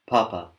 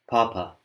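No difference in how they are said.

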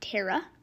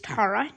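First: The name is not pronounced like tarot. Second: The name is pronounced like the word tarot. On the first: The speaker calls it wrong. "not Tara. I was mispronouncing" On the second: The speaker calls it right. "It's Tara because of Tara cards"

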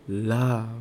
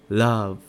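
The two takes are said the same way.

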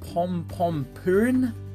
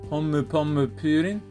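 First: The name is said in an anglicized way. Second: The name is said in a Japanese way. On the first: The speaker calls it wrong. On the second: The speaker calls it right.

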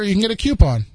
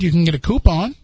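First: The first syllable of coupon sounds like 'cue'. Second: The first syllable of coupon sounds like 'coo'. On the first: The speaker calls it wrong. "they say, well, if you go here" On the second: The speaker calls it right. "No, you can't"

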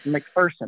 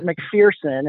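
First: The middle syllable does not sound like 'fear'. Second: The middle syllable sounds like the word 'fear'. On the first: The speaker calls it right. "It's McPherson. There ain't no fear in McPherson" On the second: The speaker calls it wrong. "I tried to pronounce it McPherson, and they quickly corrected me"

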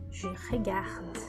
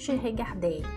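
First: The verb ends with a very weak d. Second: The verb ends with a strong, full vowel. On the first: The speaker calls it right. "Um D bem fraquinho no final" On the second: The speaker calls it wrong. "Eu não digo je regardais"

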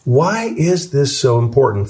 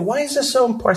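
First: It is said at normal loudness. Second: It is said in a soft voice.

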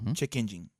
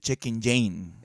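First: Engine is said as the English word engine. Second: Engine is split to sound like 'in Jane'. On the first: The speaker calls it right. "pronunciación correcta en inglés" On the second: The speaker calls it wrong. "te voy a decir todas las maneras que he escuchado que la gente lo pronuncia"

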